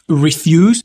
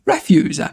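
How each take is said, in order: First: It has the stress pattern of the verb. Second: It has the stress pattern of the noun. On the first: It means to decline. "là ça veut dire refuser" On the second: It means garbage. "Refuse, ça veut dire ordure"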